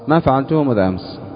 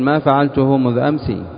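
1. تنتهي الكلمة الأخيرة بسكون. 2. تنتهي الكلمة الأخيرة بكسرة واضحة. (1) "تقف عليه بالسكون المحض الخالص" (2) "وقفت عليه بماذا؟ بالتحريك"

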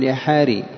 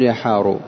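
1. ينتهي الاسم بالكسرة. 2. ينتهي الاسم بالضمة. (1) "إنما تقول يا حاري" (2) "على هذه اللغة ما تقول يا حارو"

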